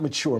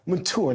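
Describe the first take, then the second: First: The word is said with an ordinary pronunciation. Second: The word is said with a British-sounding pronunciation. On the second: "It sounds so nice. / that feels very British"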